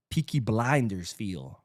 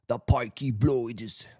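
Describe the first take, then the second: First: Said in the usual way. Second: Slow, hammed-up bad Cockney; horrible Cockney accent. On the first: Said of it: "Like, "The Peaky Blinders". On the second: Vlogger joking about Lamine's suit, bad Cockney accent. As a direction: drag it out in a clumsy mock Cockney accent. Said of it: "that was a horrible Cockney accent".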